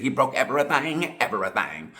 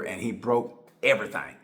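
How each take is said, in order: First: Quoting the comedian's line in his voice, with a hint of mimicry; Cat Williams impression. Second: Said in the usual way. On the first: Vlogger quoting Cat Williams, a light comic impression. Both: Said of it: "like Cat Williams said".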